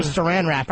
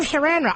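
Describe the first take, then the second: First: Said in the usual way. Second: High-pitched mimicry of a wacky voice; wacky clip voice. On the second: Host imitating the crazy voice from the clip, high and wacky. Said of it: "I gotta get that voice down".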